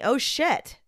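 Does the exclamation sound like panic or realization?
panic. It is said with sudden, panicked alarm. The speaker sees immediate danger coming. "oh my God, this car is about to hit me"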